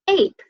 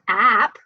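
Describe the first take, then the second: First: The vowel is long, saying its name. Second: The vowel is short, like in 'app'. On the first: The speaker calls it right. "The A makes the long vowel sound" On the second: The speaker calls it wrong. "we don't say it's an app"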